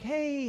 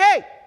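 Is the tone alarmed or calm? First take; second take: calm; alarmed. First: It is said in a calm, casual way. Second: It is shouted in alarm.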